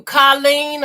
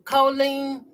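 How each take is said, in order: First: "Colleen" with an open AH, KAH-leen; first syllable "Col". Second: "Colleen" with a long OH, KOH-leen; alternative pronunciation. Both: Shown as a demonstration. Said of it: "Colleen or Col-, Colleen, something like that".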